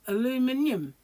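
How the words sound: It is said with five syllables, British style. "there's an I there, so it's a aluminium"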